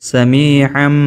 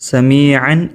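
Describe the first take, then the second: First: The word ends with an m sound. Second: The word ends with an n sound. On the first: "മീമിൻ്റെ ഉച്ചാരണം വരണം" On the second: "ഇവിടെ കണ്ട നിങ്ങൾ സമീഅൻ എന്നായിരുന്നു"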